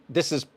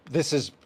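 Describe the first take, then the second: No difference in how they are said.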